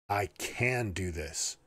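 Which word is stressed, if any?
can. The word "can" is stressed.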